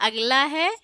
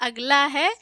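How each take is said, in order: Both takes have the same delivery.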